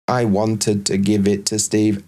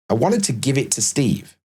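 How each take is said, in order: First: Every word is said with equal, flat stress. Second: The words give and Steve are stressed. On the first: The speaker calls it wrong. "There's no emphasis, there's no stress, everything's equally pronounced" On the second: The speaker calls it right. "we're going to put a bit of stress on the word give, because that's the function, and Steve"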